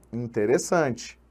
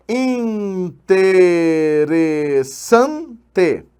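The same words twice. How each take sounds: First: Said in the usual way. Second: Interessante very slowly, syllable by syllable, SAN emphasized; stressed syllable demo. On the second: Shown as a demonstration. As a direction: stretch each syllable of Interessante, leaning on SAN. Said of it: "sílaba tônica colocada na penúltima".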